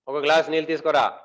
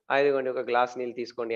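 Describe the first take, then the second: First: Acted husband's demand, only mildly raised; half-hearted mock yell of a command; mock shouted order. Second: Acted calm, polite offer, quick and understated; mild, conciliatory offer. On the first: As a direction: order it curtly without really shouting. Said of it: "అట్లా అరుస్తారా". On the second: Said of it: "మళ్ళీ normal అయిపోతది".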